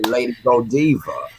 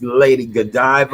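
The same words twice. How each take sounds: First: It is said in a hood street accent. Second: It is said in his ordinary standard way.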